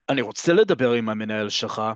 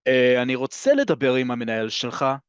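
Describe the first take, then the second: First: Annoyed, with אני רוצה לדבר עם המנהל שלך kept flat and falling at the end. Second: Annoyed whine that goes up at the end; whiny. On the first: Fed-up customer demanding the manager, flat and falling. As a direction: state it bluntly, with the tune dropping. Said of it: "flat and down". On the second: Annoyed customer whining to staff, demanding the manager. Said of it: "a little bit of a liyalil in there, a little bit of a whine". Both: Shown as a demonstration.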